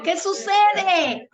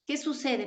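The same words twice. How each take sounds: First: SUCEDE stretched slowly, high and loud; intrigued outcry. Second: Softly posed question, falling at the end. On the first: Preacher stirring the congregation's intrigue, SUCEDE loud and drawn out. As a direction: draw out "sucede" in a raised, loud voice for suspense. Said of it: "La intriga, ¿no?". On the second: Preacher posing a question to the congregation, softly. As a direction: ask it quietly, without any push. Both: Real, not acted.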